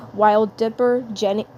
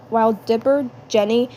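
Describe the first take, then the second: No difference in how they are said.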